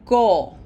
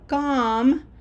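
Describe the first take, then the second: First: The vowel is closed. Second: The vowel is open. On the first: The speaker calls it right. "this is a closed O, always closed" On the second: The speaker calls it wrong. "this is not com"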